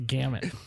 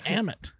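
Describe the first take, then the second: First: The word begins with a sounded G. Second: The word begins with no G sound.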